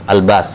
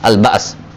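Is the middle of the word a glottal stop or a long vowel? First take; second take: long vowel; glottal stop. First: The middle has a long vowel, no glottal stop. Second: The middle has a glottal stop after the vowel. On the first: The form is changed to rhyme with the previous phrase. "maka hamzanya diganti dengan alif" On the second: This is the original form of the word.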